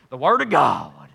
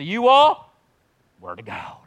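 First: Said in the usual way. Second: Pentecostal voice. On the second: Acted. Pastor assigning a section, lightly in Pentecostal preacher style. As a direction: slip into a revival preacher's intonation. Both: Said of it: "in the Pentecostal voice".

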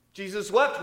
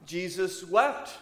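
First: Jesus wept again, higher and louder, wept pushed up; repeated with more force. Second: Jesus wept, said slowly with a lingering rise on wept; slow solemn reading. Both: Shown as a demonstration. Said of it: "that very famous verse".

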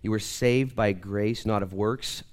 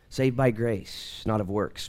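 First: Slow, with saved and not stressed and rising; insistent repeat to make the crowd listen; emphatic repeat. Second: Slow, even statement of the doctrine; measured first statement before the emphatic repeat. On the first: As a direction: press hard on saved and not. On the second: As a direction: lay it down slowly and plainly. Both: Shown as a demonstration. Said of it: "But listen, please".

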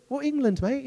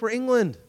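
First: High, put-on English accent; imitation English bravado, pitched up; mock English accent. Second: Said in the usual way. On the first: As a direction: play a cocky English soldier with an English accent. Repeats line as cocky Englishman.

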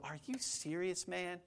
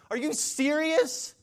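First: Hushed, much softer mock incredulity; quiet disbelief. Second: Very high, slow stretched question; incredulous outrage. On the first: Preacher acts a listener balking at grace, hushed disbelief. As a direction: ask it under your breath, stunned. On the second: Acted. Preacher plays an aggrieved spouse challenging the advice, high incredulity. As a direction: draw it out in mock outrage. Acted spouse indignant at being told forgive.

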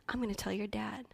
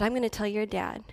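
First: Hushed, voiceless warning; whispered threat. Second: Said in the usual way. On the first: Retold or imitated. Relative threatening the frightened child, in a whisper. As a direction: breathe the threat like a secret. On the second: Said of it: "she said".

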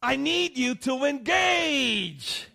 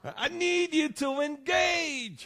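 First: High, loud, slow scream; mock-frantic cry for help; screaming mother. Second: Mock-frantic cry for help; screaming mother. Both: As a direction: yell it like a fed-up mom. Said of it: "she screams at her husband".

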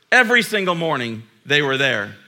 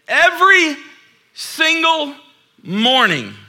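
First: Said in the usual way. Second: Every single morning, each word punched high and loud; stress each word. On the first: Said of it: "plain restatement". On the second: Real, not acted. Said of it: "emphatic build".

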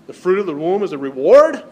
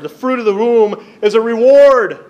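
First: Reward asked as a doubtful question, louder; incredulous question. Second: Loud proclamation. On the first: Shown as a demonstration. Pastor mimics modern doubt to the congregation, incredulous. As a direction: voice the culture's disbelief. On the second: Real, not acted. Pastor declares the verse to his congregation, loud and high. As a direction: ring out each word, higher and louder. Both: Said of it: "I don't think we get that in our culture today".

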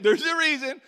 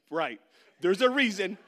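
First: "There's a reason" higher and much louder, "reason" punched; emphatic repeat. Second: Louder, pointed coach reply; coach's hint. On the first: Coach repeating his hint, higher and louder. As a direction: hammer the unsaid point home. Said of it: "He didn't wanna say it". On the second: Coach telling the benchwarmer why, pointed. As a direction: lean on it as a hint. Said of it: "He's like". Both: Retold or imitated.

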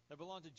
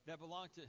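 No difference in how they are said.

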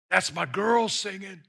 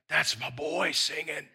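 First: A sudden proud shout over his daughter; proud call out. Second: Softer, hushed delight over his son; tender fatherly pride. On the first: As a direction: burst out with joy. God's pride bursting out. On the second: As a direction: say it like a proud whisper of love. God's tender pride, softer take. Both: Acted.

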